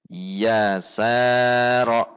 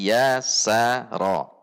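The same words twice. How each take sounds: First: One of the syllables is drawn out longer. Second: The syllables are short, even and smooth. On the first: The speaker calls it wrong. "dipanjangkan salah satunya" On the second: The speaker calls it right.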